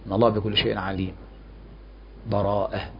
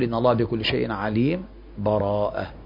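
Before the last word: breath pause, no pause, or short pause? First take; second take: breath pause; short pause. First: A full stop with a breath comes before the last word. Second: A brief pause without breath comes before the last word. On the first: "أما الوقف فيكون مع النفس" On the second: "السكت يقول ... من غير نفس"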